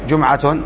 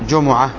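First: The word ends in a t sound with a vowel. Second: The word ends in a soft h sound. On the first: The word runs on into the next word. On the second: The word ends the phrase.

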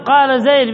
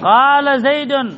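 First: Zayd ends on a bare d. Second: Zayd ends with an -un sound. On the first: The speaker calls it right. "الصواب قال زيد بإسكان الدال في الوقف" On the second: The speaker calls it wrong. "بإظهار التنوين في الوقف"

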